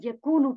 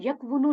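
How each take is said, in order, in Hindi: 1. k के बाद लंबी u की आवाज़ आती है, w नहीं। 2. k के बाद w की आवाज़ आती है। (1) "बल्कि यकूनु पढ़ा जाता है" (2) "यकवुनु नहीं"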